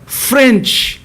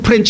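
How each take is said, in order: First: The word begins with an F sound. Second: The word begins with a P-like sound. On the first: The speaker calls it right. "French 해야 되는데" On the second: The speaker calls it wrong. "푸 프렌치 말고"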